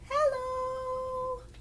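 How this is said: It is said in a high voice.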